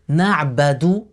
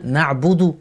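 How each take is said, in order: First: The vowel after the b is a. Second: The vowel after the b is u. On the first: The speaker calls it wrong. "dire na'badu à la place de na'budu" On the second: The speaker calls it right. "à la place de na'budu"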